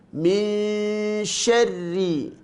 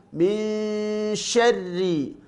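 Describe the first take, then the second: The two takes are said the same way.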